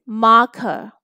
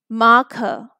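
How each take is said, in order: No difference in how they are said.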